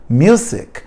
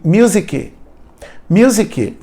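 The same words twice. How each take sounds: First: "Music" stopping dry on the C; correct pronunciation. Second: "music" as "muzike" with an extra syllable; wrong pronunciation. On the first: Shown as a demonstration. Teacher modelling the right form, clipped ending. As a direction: cut "Music" off short at the end. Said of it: "Para no C. O C é mudo". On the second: Retold or imitated. Teacher imitating learners' epenthesis, extra syllable. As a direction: tack a ki onto the end of "music". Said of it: "Tem gente que fala assim".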